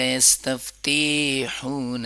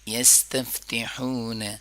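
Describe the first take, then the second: First: The 'ti' is long and 'hun' is short. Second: The 'ti' is short and 'hun' is long. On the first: The speaker calls it wrong. "ज़्यादातर लोग तिहून करते हैं, ते को लंबा करते हैं, एन हू को शॉर्ट करते हैं।" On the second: The speaker calls it right. "आपको पढ़ना है यस्तफ्तिहून"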